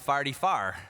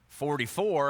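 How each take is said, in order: First: It is said in a Missouri accent. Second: It is said in a plain standard accent. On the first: "that's what we say in Missouri" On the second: "instead of saying forty-four"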